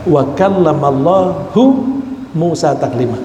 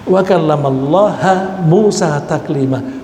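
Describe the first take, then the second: First: The word for God ends in a stressed 'u'. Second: The word for God ends in an 'a' vowel. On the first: God is the one who speaks to Moses. The speaker calls it right. "Saya bacanya hu, saya kasih tekanan" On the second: Moses is the one who speaks to God. The speaker calls it wrong. "dibaca wa kallamallaha. Ha itu objek"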